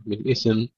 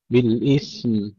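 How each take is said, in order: First: بالإثم said as bil-ithem; added vowel. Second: بالإثم slow, th straight into m; still tha, clear mim. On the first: Teacher warning students, extra vowel in بالإثم. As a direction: wrongly put a vowel between ث and م in بالإثم. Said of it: "نحافظ على سكون الثاء". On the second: Teacher giving the correct take, vowelless ث in بالإثم. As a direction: hold ث and sound م in بالإثم. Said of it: "نحافظ على سكون الثاء ونظهر الميم". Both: Shown as a demonstration.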